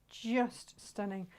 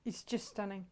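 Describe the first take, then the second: First: "Just" drawn out slowly for emphasis; slow, savouring stretch on "Just"; stress on Just. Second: Said in the usual way. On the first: Real, not acted. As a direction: linger on "Just" before "stunning".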